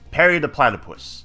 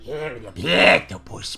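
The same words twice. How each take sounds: First: It is said in his normal voice. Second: It is said in a Doofenshmirtz impression.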